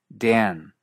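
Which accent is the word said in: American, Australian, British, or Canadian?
American. The vowel is raised even further, American style. "En partes de Estados Unidos, el efecto es aún mayor"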